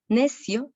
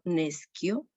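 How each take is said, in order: First: The c is said with a soft s-like sound. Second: The c is said with a hard k sound. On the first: The speaker calls it wrong. "No decimos en la segunda línea al principio necio" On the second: The speaker calls it right. "otro sonido de la C ante una I"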